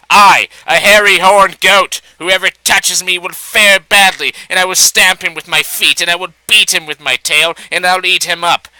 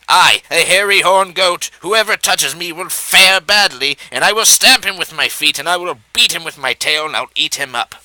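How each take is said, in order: First: Loud, higher blustering threat from a goat; loud shout. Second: Fearful cry. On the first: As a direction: bellow it to scare off the fox. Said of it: "she shouted loudly". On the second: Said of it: "cried in a fearful voice". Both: A narrator's reading.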